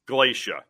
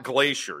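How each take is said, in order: First: It is said without the ending of 'glacier'. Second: It is said like the word 'glacier'. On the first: The speaker calls it right. "Glacia. It's not Glacier" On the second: The speaker calls it wrong. "It's not Glacier"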